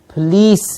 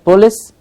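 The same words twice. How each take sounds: First: The second-syllable vowel is long. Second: The second-syllable vowel is short. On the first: The speaker calls it right. "it is police. It's a long E sound" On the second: The speaker calls it wrong. "It's not police"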